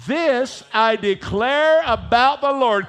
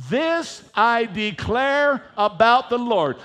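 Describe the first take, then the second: First: Louder, emphatic declaration; said like you mean it. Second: Said in the usual way. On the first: Shown as a demonstration. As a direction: proclaim it with conviction. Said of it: "Say it like you really mean it". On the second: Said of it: "Will you read it with me out loud?".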